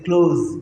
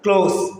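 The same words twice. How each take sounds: First: The word ends in a buzzing z sound. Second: The word ends in a hissing s sound. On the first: It means to shut. "z sound" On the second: It means near. "എസ് അവസാനം"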